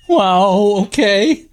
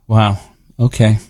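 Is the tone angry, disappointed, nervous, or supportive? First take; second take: nervous; disappointed. First: It is said in a nervous tone. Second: It is said in a disappointed tone.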